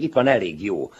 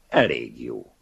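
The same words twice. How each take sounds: First: Higher and louder, eager to please; eager showing-off. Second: Cold verdict. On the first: Older writer eagerly showing his book to the young man. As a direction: push it at him, hoping for praise. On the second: Young man coldly judging the older writer's book. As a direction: dismiss it coolly. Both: Acted.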